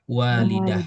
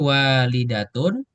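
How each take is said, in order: First: The word ends with a soft -ah sound. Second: The word ends with a pronounced -atun ending. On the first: The word is read as a pause at the end. "bisa walidah" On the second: The word is read in connected speech without stopping. "selanjutnya walidatun bisa dibaca seperti"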